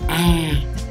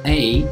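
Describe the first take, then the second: First: The letter name has a Vietnamese vowel sound. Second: The letter name has an English vowel sound. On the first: "but in Vietnamese it's called A" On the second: "this letter in alphabet is called A"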